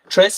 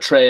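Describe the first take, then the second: First: The word ends with an audible S sound. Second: The word ends on a vowel, no S. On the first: The speaker calls it wrong. "I think you pronounce the S" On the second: The speaker calls it right. "it's pronounced Trey"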